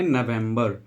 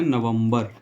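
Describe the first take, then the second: First: नवंबर said "na-VEM-bar", with an e in the middle; English pronunciation. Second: नवंबर said "na-vam-bar", open middle vowel; Hindi pronunciation. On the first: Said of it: "English बोलेंगे". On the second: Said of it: "Hindi में इसको बोलते हैं". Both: Shown as a demonstration.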